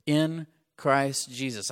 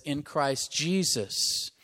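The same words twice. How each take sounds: First: "in Christ Jesus" said slowly, each word weighted; deliberate slow stress; slow emphasis. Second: Slow, with "Christ" drawn out and weighted; emphatic slow reading, Christ first; stress on Christ. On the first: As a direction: draw out the phrase. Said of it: "I want to talk for just a moment". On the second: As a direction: lean on the word Christ. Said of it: "He's putting Christ first". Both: Shown as a demonstration.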